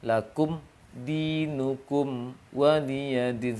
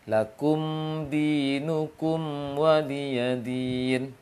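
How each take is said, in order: First: The sound stops briefly after the m, then continues. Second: The m sound flows straight into the next word. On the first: The speaker calls it wrong. "supaya terputus, terhenti suaranya baru baca huruf setelahnya" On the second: The speaker calls it right. "Seharusnya dialirkan suaranya sedikit tanpa sak, tanpa bercampur bunyinya"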